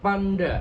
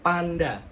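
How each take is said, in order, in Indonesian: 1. Digumamkan, mulut hampir tertutup. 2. Diucapkan dengan jelas, mulut terbuka. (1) "itu nggak jelas" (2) "kalau kita buka"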